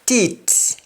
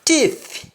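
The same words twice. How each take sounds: First: Teat ending in T instead of th; Jamaican pronunciation. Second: Said in the usual way. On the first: Shown as a demonstration. Teacher showing Jamaican speech, teat with final T for th. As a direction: close teat on a hard T. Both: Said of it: "in Jamaican".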